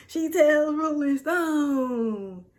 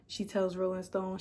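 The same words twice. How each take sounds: First: Very slow, higher and loud, every word stretched; drawn-out proud emphasis. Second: Said in the usual way. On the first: Real, not acted. Vlogger gloating over her Rolling Stone mention, drawn out. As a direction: stretch it out like a victory lap.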